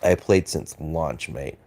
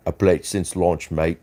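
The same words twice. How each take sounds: First: Said in the usual way. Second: Put-on light British accent on a chat read; mock British accent. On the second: Streamer reading a viewer's chat in British accent. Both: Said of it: "you got the accent wrong".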